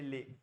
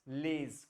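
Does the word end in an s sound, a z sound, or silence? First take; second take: silent; z sound. First: The word ends on the vowel, no consonant. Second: The word ends with a clear z sound. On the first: The speaker calls it right. "ये ले" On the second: The speaker calls it wrong. "लेज कुछ नहीं है"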